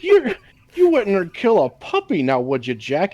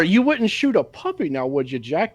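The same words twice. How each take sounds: First: Higher coaxing mock voice; sing-song plea, pitched up; quoting a movie character. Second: Corrected line, higher coaxing voice; mock plea pitched up; quoting a movie character. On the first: Co-host quoting the puppy scene, lightly higher. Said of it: "quoting the movie scene". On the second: Co-host correcting the quoted line, lightly higher.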